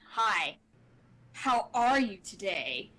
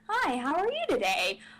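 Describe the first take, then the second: First: It is said in a threatening, menacing tone. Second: It is said in an inquisitive, curious tone.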